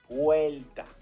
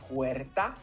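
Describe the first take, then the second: First: It is said with an L sound. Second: It is said with an R sound. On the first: "change the R's for the L's" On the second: "Instead of saying puerta"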